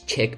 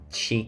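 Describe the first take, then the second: First: The word is pronounced like chick. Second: The word is not pronounced like chick. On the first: The speaker calls it wrong. "I actually pronounced it ch- as chick" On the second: The speaker calls it right. "I actually didn't know how to pronounce the word chic"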